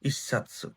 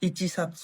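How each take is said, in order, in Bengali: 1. 'chi' একটি দ্বিত্ব ব্যঞ্জনের সঙ্গে মিশে যায়। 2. 'satsu' এর আগে 'chi' পুরোপুরি উচ্চারিত হয়। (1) "দুইটা চ উচ্চারণ একসাথে হয়ে গেছে" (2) "ইচি সাতসু না"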